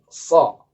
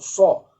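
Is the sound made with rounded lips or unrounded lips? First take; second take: unrounded lips; rounded lips. First: The sound is made without rounding the lips. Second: The sound is made with rounded, forward lips. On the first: The speaker calls it right. "tapi so" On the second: The speaker calls it wrong. "bukan caranya dengan memajukan bibir atau membulatkan bibir ... bukan so"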